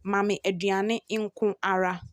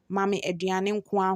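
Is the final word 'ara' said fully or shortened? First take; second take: fully; shortened. First: The last word is said in full as ara. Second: The last word is shortened to a single a. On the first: "The third one says" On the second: "when you are mentioning it or pronouncing it, you will say"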